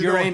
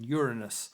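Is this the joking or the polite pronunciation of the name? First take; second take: joking; polite. First: It is pronounced the way that invites the pun. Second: It is pronounced the other way, avoiding the pun. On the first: It sets up a rude joke. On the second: It spoils the rude jokes.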